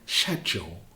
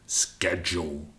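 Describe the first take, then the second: First: It is said in a British accent. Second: It is said in an American accent. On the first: "in British, we say schedule" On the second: "the silly Americans, they say schedule, which is just plain wrong"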